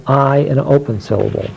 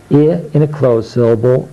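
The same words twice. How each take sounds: First: I said as its letter name, "eye"; long I sound. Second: I said "ih" as in sit; short I sound. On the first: Teacher demonstrating open syllables, I as long "eye". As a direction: say I long, as in time. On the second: Teacher demonstrating closed syllables, I as short "ih". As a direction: say I short, not as the letter name. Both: Shown as a demonstration.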